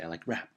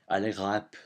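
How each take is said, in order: First: It is said in a plain English accent. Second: It is said with a strong French accent. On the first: "I say I like rap" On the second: "with the accent, you'll say"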